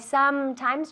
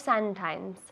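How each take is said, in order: First: The M sounds are made with closed lips. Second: The M sounds are made without closing lips. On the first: The speaker calls it right. "quiero ver los labios juntos" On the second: The speaker calls it wrong. "no sometimes"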